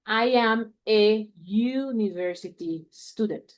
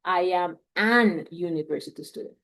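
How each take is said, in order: First: "I am a university student" slow, with a short a before a yu sound; correct sentence. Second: "I am an university student" with an n wrongly joined to "university"; wrong example. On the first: Teacher models the right article for students, slow "a university". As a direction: say it slowly, plain "a" straight into "university". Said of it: "No sería I am an university student". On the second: Teacher shows students the error, "an university" spoken as the wrong form. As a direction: give the mistaken "an university" as a counterexample. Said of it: "No sería".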